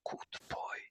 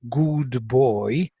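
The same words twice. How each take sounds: First: It is whispered without voice. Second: It is spoken aloud with voice.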